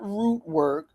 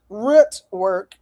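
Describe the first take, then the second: First: "Root" with a long oo, as in "boot"; the rejected "Root", long oo sound; long-vowel "Root". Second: "Root" with the short vowel of "foot"; the corrected "Root", short clipped oo. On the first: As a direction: say "Root" to rhyme with "boot", slow and softer. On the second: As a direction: say "Root" to rhyme with "foot", not "boot". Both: Shown as a demonstration. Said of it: "not Root Work".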